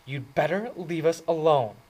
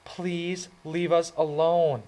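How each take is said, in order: First: Sharp, higher, louder warning; higher, louder biting warning. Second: Higher, slow plea; higher, slower pleading request. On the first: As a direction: bite each word off at him. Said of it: "in a biting voice". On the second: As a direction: ask him to go, pleading slowly. She said. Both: A narrator's reading.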